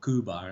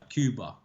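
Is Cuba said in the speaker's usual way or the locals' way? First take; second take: locals'; speaker's usual. First: It is said with the locals' pronunciation. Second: It is said with the speaker's usual pronunciation.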